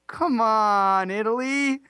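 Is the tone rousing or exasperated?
exasperated. It sounds like an exasperated, pleading nudge.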